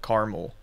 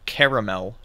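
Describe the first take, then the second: First: It is said in a non-Southern way. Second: It is said in a Southern US way. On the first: "instead of caramel" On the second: "Because I'm from the southern United States, I say things differently ... I say caramel"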